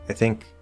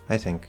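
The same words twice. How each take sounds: First: The stress falls on the word think. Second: The stress falls on the word I. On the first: "instead of I think" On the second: "the focus is actually on I"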